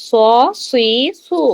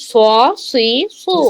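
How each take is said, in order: No difference in how they are said.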